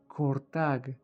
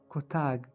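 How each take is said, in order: First: It is said with an r before t. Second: It is said without an r sound.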